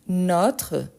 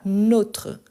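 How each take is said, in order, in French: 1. La voyelle o est ouverte. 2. La voyelle o est fermée. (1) "c'est les sons ouverts" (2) "avec les sons fermés"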